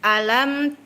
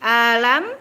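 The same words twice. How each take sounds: First: The opening vowel starts crisply from the throat. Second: The opening vowel is dragged out and slack. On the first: The speaker calls it right. "tekan di makhrajnya, pangkal tenggorokan, buka fathah dengan sempurna" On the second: The speaker calls it wrong. "jangan alam"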